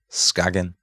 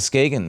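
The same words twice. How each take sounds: First: The name is said with a Danish pronunciation. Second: The name is said with an English pronunciation.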